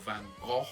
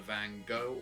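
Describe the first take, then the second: First: The name is said in a fancy, arty way. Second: The name is said in a plain, everyday way.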